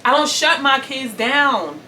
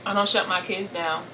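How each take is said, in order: First: Louder, higher, slow, SHUT leaned on; emphatic insistence. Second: Said in the usual way. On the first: Real, not acted. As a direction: hammer home "shut" slowly and high.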